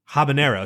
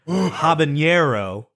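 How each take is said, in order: First: Only the first half has a Spanish accent. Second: The whole word has a Spanish accent.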